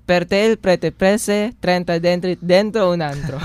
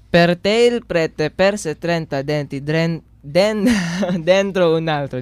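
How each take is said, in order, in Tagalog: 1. Mabilis ang pagkakasabi ng pangungusap. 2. Mabagal at maingat ang pagkakasabi ng pangungusap. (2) "dadahan-dahanin ko muna"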